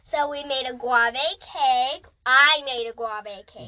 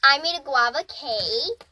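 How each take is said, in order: First: "guave" said as "GWAH-vay"; mispronounced guava. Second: "guava" said as "GWAH-vuh"; corrected guava. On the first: Child recounting Hawaiian dinner, "guave" mispronounced as "GWAH-vay". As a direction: say "guave" with an ay ending in place of ah. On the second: Child retrying after parent's correction, "guava" as "GWAH-vuh". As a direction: say "guava" with an uh ending. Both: Real, not acted. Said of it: "words you can't pronounce".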